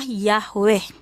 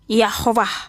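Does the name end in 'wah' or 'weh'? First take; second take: weh; wah. First: The name ends with a 'weh' sound. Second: The name ends with a 'wah' sound. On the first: This is the standard pronunciation of the name. "pronounsnya adalah Yahweh" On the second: This is a dialect variant of the same name. "Ada yang pelafalannya Yahwah"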